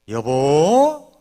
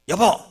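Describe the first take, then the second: First: The word is called softly and gently. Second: The word is called sharply and short.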